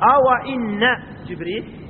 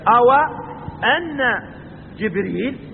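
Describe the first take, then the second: First: The second word begins with an i vowel. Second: The second word begins with an a vowel. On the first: "وبكسر همزة إن" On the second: "ويجوز الفتح"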